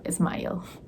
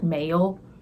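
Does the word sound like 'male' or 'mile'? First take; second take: mile; male. First: The vowel sounds like the one in 'mile'. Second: The vowel sounds like the one in 'male'. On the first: The speaker calls it right. "That's not right. It's Mile" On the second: The speaker calls it wrong. "this is how you would pronounce it as an Indian"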